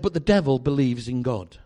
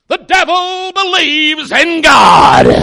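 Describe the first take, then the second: First: It is said at normal pace. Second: It is said slowly, with a growl.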